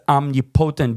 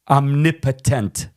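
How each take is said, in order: First: It is said like two words joined together. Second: It is said as one standard single word. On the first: "I just says omnipotent because it's kind of two words ma- mashed together" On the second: "is the right pronunciation"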